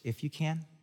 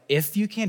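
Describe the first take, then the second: First: It is said in a gentle, playful tone. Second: It is said in a sharp, indignant tone. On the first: The speaker is teasing tenderly rather than disputing. The speaker calls it right. "Jesus maybe gives a little wink like" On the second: The speaker is challenging the doubt in the request. The speaker calls it wrong. "someone might read it as like, if you can. Did you say if?"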